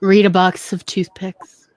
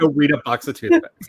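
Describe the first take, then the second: First: Flat, slow brush-off; dismissive. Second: Laughing repeat. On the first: Real, not acted. Telling listeners off, slow and dismissive. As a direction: dismiss them, slowly. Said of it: "it just sounds like you were being so, like, dismissive". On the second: Shown as a demonstration. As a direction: shout it through a laugh. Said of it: "For anybody who doesn't know".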